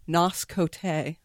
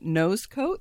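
First: The name is said in a fancy, foreign-sounding way. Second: The name is said in a plain, ordinary way. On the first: The speaker calls it wrong. "me being too full of myself would pronounce it Nos Cote" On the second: The speaker calls it right. "there's a product that was called Nose Coat"

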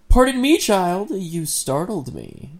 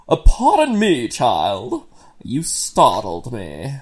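First: It is read in the narrator's ordinary voice. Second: It is spoken in a put-on southern-style character voice.

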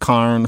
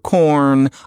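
First: The vowel sounds like 'ar'. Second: The vowel sounds like 'or'. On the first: The speaker is from St. Louis. "It's carn for corn" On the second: The speaker is not from St. Louis. "for corn"

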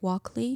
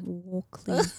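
First: It is said in her usual, non-Australian accent. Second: It is said in a put-on Australian accent. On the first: "Did I say it right?" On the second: "it sounds dumb when I say it like that"

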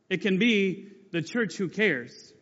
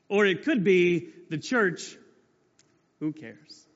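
First: Who cares is said sincerely, as a description. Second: Who cares is said as a dismissive shrug.

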